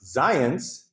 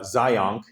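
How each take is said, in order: First: The name ends with an s sound. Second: The name ends with a k sound. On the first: The speaker calls it right. "It's pronounced Zions. Uh, it rhymes with science" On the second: The speaker calls it wrong. "it's not uh"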